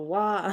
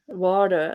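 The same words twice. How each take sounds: First: The T in the middle is dropped. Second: The T in the middle sounds like a D. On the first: Someone else says it this way. "You don't. You go water" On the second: It sounds American. "like with a D"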